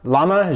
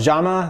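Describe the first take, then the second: First: The word starts with an L sound. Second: The word starts with a J sound. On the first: "everybody in America calls it a Llama" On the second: "I think Jama is the best pronunciation"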